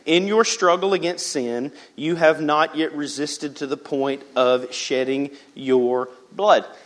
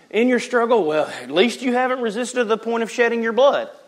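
First: It is read in a plain, sincere tone. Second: It is read in a snarky, dismissive tone.

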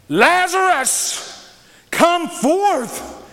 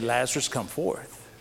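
First: It is said powerfully, with authority. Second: It is said weakly, without authority.

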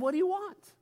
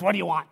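First: It sounds gentle and calm, not impatient. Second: It sounds impatient, like scolding kids.

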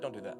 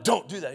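First: It is said in a soft, gentle way. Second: It is said in a harsh, stern way.

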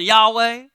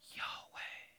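First: It is spoken aloud in a Southern accent. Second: It is whispered, like a breath.

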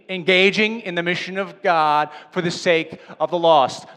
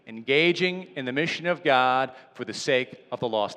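First: It is said loudly with strong conviction. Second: It is said in a plain, even voice. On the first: "Now say it like you mean it" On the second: "Say it with me"

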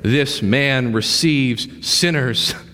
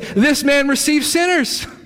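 First: It is said grumbling, with disgust. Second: It is said gladly, with rejoicing. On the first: The speakers resent the welcome given to sinners. The speaker calls it wrong. "They said it this way" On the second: The speakers celebrate the welcome given to sinners. The speaker calls it right. "They're supposed to say"

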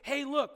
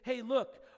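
First: It is said loudly and emphatically. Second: It is said softly and casually.

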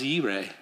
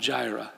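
First: The word begins with a Y sound. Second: The word begins with a J sound. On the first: The speaker calls it right. "The proper way to say it is Yireh" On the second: The speaker calls it wrong. "Jireh is not a faithful pronunciation"

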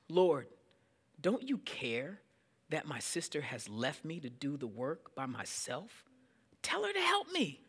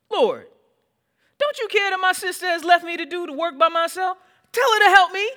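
First: It is read in a calm, plain tone. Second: It is said in an exasperated, complaining tone.

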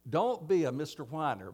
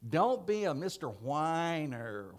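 First: It is said in a plain voice. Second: It is said in a whiny, mocking voice.

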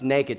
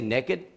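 First: The word has a standard pronunciation. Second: The word has a Southern regional pronunciation. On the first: The speaker calls it right. "it's naked" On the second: The speaker calls it wrong. "I used to say naked because I'm from South Georgia"

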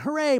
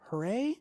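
First: It sounds happy and celebratory. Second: It sounds doubtful and questioning. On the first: Everyone is delighted with the outcome. "the family's going" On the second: The outcome feels unsatisfying and uncertain. "more of like a questioning hooray"

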